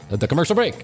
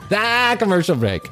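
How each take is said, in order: First: The word 'the' is said without stress. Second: The word 'the' is strongly stressed.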